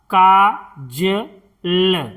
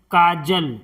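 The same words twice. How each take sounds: First: काजल drawn out slowly with long का; slow syllable by syllable. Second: Said in the usual way. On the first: Shown as a demonstration. Teacher spelling out a word for students, slowly. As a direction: stretch काजल for learners. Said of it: "slow drawn-out demo". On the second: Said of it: "normal take".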